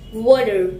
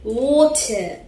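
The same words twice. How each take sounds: First: It is said in an American accent. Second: It is said in a British accent. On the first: "If you follow the American accent, so you should you should pronounce it like R" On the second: "As I'm following the British accent"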